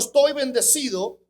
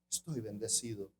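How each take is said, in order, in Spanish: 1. Se dice con un tono alegre y positivo. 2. Se dice con un tono triste y decaído. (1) "te están hablando de algo bueno" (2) "con una tristeza en su alma"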